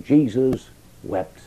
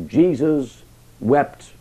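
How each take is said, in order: First: Slow, hushed wonder on Jesus wept; slow solemn repeat. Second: Very slow, every word weighed; slow solemn reading. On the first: Preacher repeating the verse in wonder to listeners, slow and weighed. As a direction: linger on each word, marvelling. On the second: Preacher reading the shortest verse to the congregation, very slow and solemn. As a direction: let the verse sink in slowly. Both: Acted.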